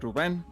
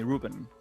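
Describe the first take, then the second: First: The name has a Spanish pronunciation. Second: The name has an English pronunciation. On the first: This is how people in Spain say it. "if you are in Spain, you would pronounce my name like Ruben" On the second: This is how people abroad say it. "I just got used to people calling me Ruben"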